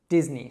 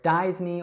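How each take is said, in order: First: The first vowel is a short i. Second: The first vowel is not a short i. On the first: The speaker calls it right. "It's actually just Disney. So that short I sound" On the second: The speaker calls it wrong. "it's not Disney or Disney or something like that"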